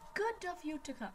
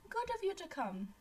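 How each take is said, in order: First: It is said in her ordinary own voice. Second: It is said in a put-on character voice.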